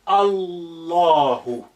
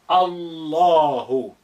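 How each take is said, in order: No difference in how they are said.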